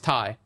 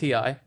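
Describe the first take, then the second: First: It is said as one word. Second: It is said as two separate letters. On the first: The speaker calls it wrong. "sometimes I'll mix it up and I'll say" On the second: The speaker calls it right. "instead of T I"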